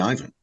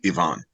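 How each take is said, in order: First: The name is said the way Americans say it. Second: The name is said as its own bearer says it. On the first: This is how an American would say the name so it sounds right. "from the American's perspective, it always has to be Ivan" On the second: This is how the character himself would say his name. "from his perspective, it will always be Ivan"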